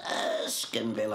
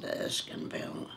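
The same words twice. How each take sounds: First: Sniffy "Erskineville" with the pitch lifting upward; voice goes up, nasal. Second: Said in the usual way. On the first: Retold or imitated. Snobbish new girl sniffing at her suburb, "Erskineville" rising nasally. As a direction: lift "Erskineville" up through the nose in disdain. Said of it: "her voice went up with a nose". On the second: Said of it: "I said".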